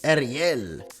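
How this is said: The name has a Spanish pronunciation.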